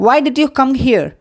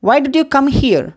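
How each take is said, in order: First: Very slow, each word spaced; slow model phrase. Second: Said in the usual way. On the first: Shown as a demonstration. Teacher to Tamil learners, slow clear model question. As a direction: spell it out slowly to copy. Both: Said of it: "teacher models English phrase twice".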